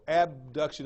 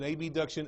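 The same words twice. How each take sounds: First: Said in the usual way. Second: Abduction said as A-B-duction, naming the letters A and B; letters spelled out. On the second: Shown as a demonstration. Teacher to students, so abduction isn't confused with adduction, spelling A-B-duction. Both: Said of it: "I usually say abduction or adduction".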